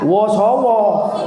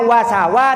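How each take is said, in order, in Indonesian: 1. Vokalnya bunyi 'o' bulat. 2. Vokalnya bunyi 'a' terbuka. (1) "tidak boleh dibaca wosowo" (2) "Seharusnya wasawa"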